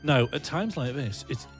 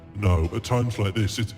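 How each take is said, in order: First: It is said in her normal voice. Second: It is said in a deeper voice.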